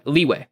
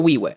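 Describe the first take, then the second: First: Said in the usual way. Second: Leeway said as "weeway"; mispronounced leeway. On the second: Real, not acted. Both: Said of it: "I think I said leeway".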